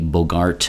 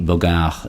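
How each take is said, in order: First: The final T sound is pronounced. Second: The final T sound is left silent. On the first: The speaker calls it wrong. "it would not be Bogart" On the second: The speaker calls it right. "you do not pronounce the T at the end"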